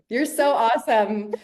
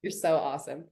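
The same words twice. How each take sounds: First: "You're so awesome" slower and louder, leaning on so; emphatic. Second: Said in the usual way. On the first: Real, not acted. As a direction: stretch out "so" and make it loud. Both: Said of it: "repeated with more emphasis".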